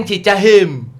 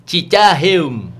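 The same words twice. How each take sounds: First: "Cicaheum" mangled to "Cicahem"; tongue-tied accent. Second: "Cicaheum" said slowly as "Cicahem" by a Batak tongue; Batak accent. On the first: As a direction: fumble the name with a tangled tongue. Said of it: "lidahnya belibet". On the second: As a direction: stumble over it like a Batak speaker. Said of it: "kalau orang Batak ... dengan lidahnya". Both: Retold or imitated.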